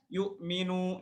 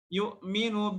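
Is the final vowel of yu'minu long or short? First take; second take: long; short. First: The final vowel is held long. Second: The final vowel is cut short. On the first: The speaker calls it right. "Harusnya yu'minu" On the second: The speaker calls it wrong. "nu-nya pendek ... Dan ini salah, nggak boleh"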